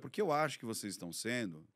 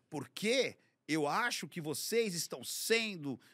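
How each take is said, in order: First: It is read in a calm, neutral tone. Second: It is read in an angry, quarrelsome tone. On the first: The writer is simply stating a view. "Eu li de uma outra maneira" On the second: The writer seems to be picking a fight. "você já está colocando uma entonação que parece que a pessoa está brigando"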